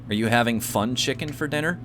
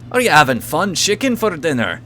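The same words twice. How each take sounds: First: It is said in the speaker's ordinary accent. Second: It is said in an Irish accent.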